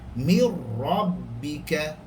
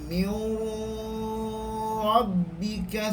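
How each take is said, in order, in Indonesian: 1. Bunyi n menyatu ke dalam r tanpa dengung. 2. Bunyi yang menyatu ada dengung sengau. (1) "masuk ra dengan keadaan tekan sahaja tanpa dengung" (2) "Jangan baca mir rabbika, salah"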